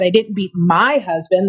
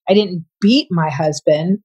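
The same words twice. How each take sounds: First: The word my carries the main stress. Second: The word beat carries the main stress. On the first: Someone else's husband was the one beaten. "That's implying somebody else's" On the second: Something other than beating was done. "implied you didn't beat him. You may have done something else"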